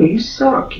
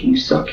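First: High loud jeer; loud high taunt. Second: Breathy whispered jeer; whispered taunt. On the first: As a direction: throw it at him, high and loud. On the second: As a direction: hiss the taunt under breath. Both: Real, not acted. Repeated taunt.

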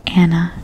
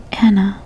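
First: A hint of big-brother condescension; condescending. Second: Said in the usual way. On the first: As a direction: say Anna like to a foolish child. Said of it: "he said condescendingly".

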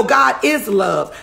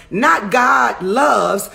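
First: "is" leaned on in correction; slow, firm weight on "is" before "love"; stress on IS. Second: "loves" set apart, slowly; stress on LOVES. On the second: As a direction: draw out "loves" as the word to reject. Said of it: "No, God is love". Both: Shown as a demonstration.

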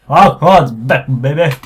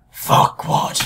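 First: Loud. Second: Whispered. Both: Shown as a demonstration. Reading game dialogue twice.

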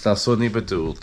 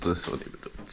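First: Said in the usual way. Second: Whispered apology. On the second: Shown as a demonstration. To his girlfriend, a sheepish whispered apology. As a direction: breathe it out as a soft whisper. Repeats apology ever softer.

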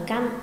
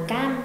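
First: "găm" with a short a closed on m; corrected reading. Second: "gam" with a long open a, as against short "găm"; wrong reading. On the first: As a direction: cut the vowel short in "găm". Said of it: "mà đọc là găm". (đọc "găm" với âm ă ngắn) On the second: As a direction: draw out the vowel of "gam". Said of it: "Không đọc là gam". (đọc "gam" với âm a dài) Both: Shown as a demonstration.

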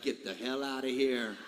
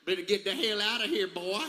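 First: Put-on understated Kentucky accent, low and dismissive; imitated Kentucky accent. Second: Exaggerated Kentucky country imitation; mock scolding in a thick Kentucky accent. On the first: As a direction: lower your voice into a country Kentucky accent. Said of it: "that Kentucky accent". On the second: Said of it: "say it with that country accent".

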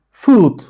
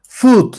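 First: Said in the usual way. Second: Food said high and crisp as the model /fut/; model pronunciation. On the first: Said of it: "teacher repeats word". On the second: Shown as a demonstration. Teacher models Food for pupils, high and clear. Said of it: "teacher models word".

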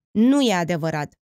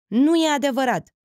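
First: Firm, louder denial; heated denial. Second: Heated denial, rising. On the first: Felix denies the rumour about Otilia, heated. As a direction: deny it with heat. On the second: Felix insists again, higher and heated. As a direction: repeat the denial higher and louder. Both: A narrator's reading. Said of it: "negă Felix aprins".

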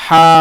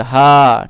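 First: হা breathed from the middle of the throat; Arabic ha from mid-throat. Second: হা breathed from the start of the throat; Arabic ha from throat start. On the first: Teacher shows ha from the middle of the throat. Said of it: "এটা গলার মধ্যখান থেকে বের হয়". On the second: Teacher shows ha from the start of the throat. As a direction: let হা come from the top of the throat. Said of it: "গলার শুরু থেকে হা". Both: Shown as a demonstration.

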